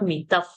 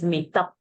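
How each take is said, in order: First: The word ends with an f-like sound. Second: The word ends with a p-like sound. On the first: The speaker calls it wrong. "It is not mitaf" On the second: The speaker calls it right. "It is mitap"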